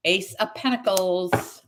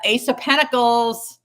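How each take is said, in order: First: Said in the usual way. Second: Ace of Pentacles called out high, loud and slow; excited card call. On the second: Real, not acted. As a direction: announce the card like a win. Card announced, then repeated.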